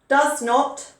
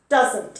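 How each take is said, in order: First: It is said as two full separate words. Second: It is said as one short contracted word. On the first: "does not becomes doesn't" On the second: "becomes doesn't"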